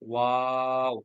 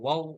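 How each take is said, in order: First: The vowel is drawn out to four counts. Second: The vowel is said short, not drawn out. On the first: The speaker calls it right. "চার আলিফেই বলতে, লক- টেনেই বলতে হবে" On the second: The speaker calls it wrong. "ওয়াও বলা যাবে না"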